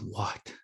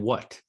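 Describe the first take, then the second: First: The W starts with a breathy, voiceless puff. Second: The W starts with a strong, voiced sound. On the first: "we're not saying "what,"" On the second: "it's it's a strong voiced W"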